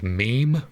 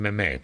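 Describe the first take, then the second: First: The word is said with the usual English pronunciation. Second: The word is said with a French-style pronunciation. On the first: "I know that this is pronounced meme now" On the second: "This is more of a French pronunciation"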